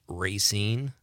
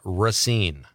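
First: The first vowel is a long A. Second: The first vowel is not a long A. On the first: "I hear that a lot" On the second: "Racine does not have a long A. It's pronounced Racine"

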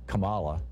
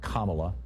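First: The first syllable does not sound like calm. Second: The first syllable sounds like calm. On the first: The speaker calls it wrong. "the song pronounced it Kamala" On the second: The speaker calls it right. "it's actually pronounced Kamala, like calm Allah"

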